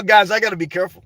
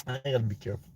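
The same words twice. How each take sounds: First: Said in the usual way. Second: Muttered under his breath, much softer; half to himself, far quieter; much softer aside. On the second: Real, not acted. Vlogger warning himself in a much softer aside.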